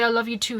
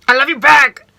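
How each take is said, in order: First: Said in the usual way. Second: Put-on much louder, higher boyfriend voice on I love you back with a rising end; imitating boyfriend. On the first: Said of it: "He never used to say". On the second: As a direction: mimic his cheerful reply. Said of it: "He used to say".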